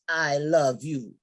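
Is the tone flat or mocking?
flat. It is said flatly, without emotion.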